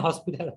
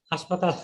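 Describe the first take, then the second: First: "হসপিটাল" the English-derived way, as hos-pi-tal; English loanword. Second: "হাসপাতাল" the Bangla way, with open a vowels; Bangla pronunciation. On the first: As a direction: say "হসপিটাল" with o, then short i. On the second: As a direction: say "হাসপাতাল" as haash-pa-taal. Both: Shown as a demonstration. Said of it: "হসপিটাল এখন বাংলা".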